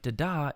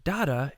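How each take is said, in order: First: "da-da" stressed on the second syllable; "da-da" with a light first beat and a long second; iamb. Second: "dada" stressed on the first syllable; "dada" with a firm first beat and light second; trochee. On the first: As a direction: say "da-da" as da-DA, weak then strong. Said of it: "foot that Shakespeare is using here". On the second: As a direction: say "dada" as DA-da, strong then weak. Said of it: "The opposite". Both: Shown as a demonstration.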